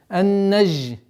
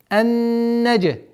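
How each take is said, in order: First: The consonant is a soft zh sound without a bounce. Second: The consonant is a hard j sound with a bounce. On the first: The speaker calls it wrong. "Ни в коем случае она не должна звучать как ж" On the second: The speaker calls it right. "Применение с калькалей. Джим"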